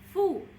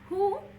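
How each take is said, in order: First: The syllable begins with an f sound. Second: The syllable begins with an h sound. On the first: The speaker calls it right. "but fu" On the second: The speaker calls it wrong. "It is not who"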